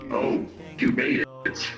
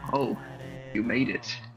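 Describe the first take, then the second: First: It is said in a theatrical, dramatic way. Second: It is said in a casual, plain way.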